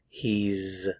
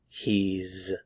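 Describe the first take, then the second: No difference in how they are said.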